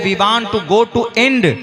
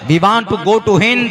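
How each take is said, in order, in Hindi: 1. आखिरी शब्द h छोड़ देता है और कठोर d पर खत्म होता है। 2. आखिरी शब्द h से शुरू होता है और नरम d है। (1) "हिंद के हा को हमजा से बदला और दाल को उन्होंने डाल से चेंज किया" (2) "नहीं बोला जाता"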